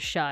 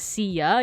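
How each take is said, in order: First: The word is said as one syllable. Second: The word is said as two syllables. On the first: The speaker calls it right. "you pronounce it as Sha" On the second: The speaker calls it wrong. "you don't pronounce it as Sia"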